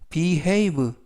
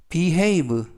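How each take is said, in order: No difference in how they are said.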